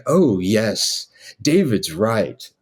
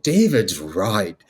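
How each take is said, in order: First: Slow, mock-wise agreement; imitated master printer. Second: Slow, swooping mock incantation; wizardly blessing. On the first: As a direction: agree slowly, as the printer echoing his master. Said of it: "he had that same rotation thing". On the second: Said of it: "a wizardly blessing over it".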